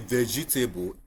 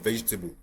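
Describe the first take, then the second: First: Every letter is sounded as it is spelled. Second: It is said without following the spelling. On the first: The speaker calls it wrong. "We will say vegetable" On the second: The speaker calls it right. "instead of vegetable"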